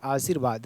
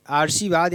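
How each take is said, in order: First: आशीर्वाद with the r before v, "aashirvaad"; आशीर्वाद with r closing the second syllable; corrected form. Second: आशीर्वाद with the r moved forward, "aarshivaad"; आशीर्वाद with r straight after the first vowel; misspelt form. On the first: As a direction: say आशीर्वाद as "aa-shir-vaad". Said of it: "र इस पर उड़ेगा". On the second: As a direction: say आशीर्वाद as "aar-shi-vaad". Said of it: "यहाँ पे लिखा हुआ है". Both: Shown as a demonstration.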